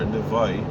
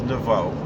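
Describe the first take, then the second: First: The name ends in an 'oy' diphthong. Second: The name ends in a plain 'o' vowel. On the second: "the way we pronounce it is Nevo"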